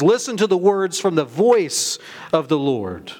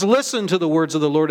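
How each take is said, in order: First: "voice" punched as the key word; emphatic contrast landing on "voice"; stress on VOICE. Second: Said in the usual way. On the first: Real, not acted. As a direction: lean hard on "voice", then pause before "of the Lord". Corrects it, stressing the added phrase.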